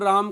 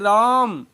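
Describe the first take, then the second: First: It is said softly and short. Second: It is shouted with a long vowel.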